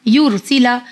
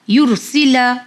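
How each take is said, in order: Both takes have the same delivery.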